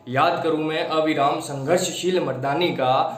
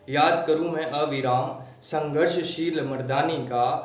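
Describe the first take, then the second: First: It is recited forcefully, with high energy. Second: It is recited slackly, with low energy.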